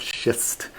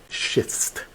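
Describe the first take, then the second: First: Said in the usual way. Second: Schist whispered and spelled out clearly, sh-ist; careful pronunciation. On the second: Shown as a demonstration. Guide clarifies schist for the tour group, whispered. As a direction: hush it, set schist apart from the bad word. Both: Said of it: "not the bad word".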